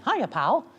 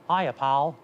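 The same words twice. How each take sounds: First: It is in a middle-range falsetto pitch. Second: It is pitched too low for falsetto. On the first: The speaker calls it right. "here's Mickey, he lies in kind of a middle falsetto" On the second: The speaker calls it wrong. "If I go too low"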